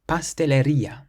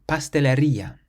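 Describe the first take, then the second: Both takes have the same delivery.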